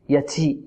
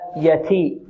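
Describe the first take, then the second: First: The t carries an s-like hissing sound. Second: The t is a clean stop without hissing. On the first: The speaker calls it wrong. "البعض يشرب التاء رائحة السين" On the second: The speaker calls it right. "نقول هكذا"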